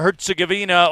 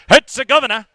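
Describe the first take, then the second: First: It is said in the speaker's ordinary pronunciation. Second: It is said the way British announcers say it.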